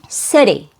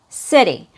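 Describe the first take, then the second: First: The middle consonant is a quick, light d. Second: The same.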